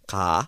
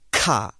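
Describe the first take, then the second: First: The k is said with little breath. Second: The k is said with a puff of breath.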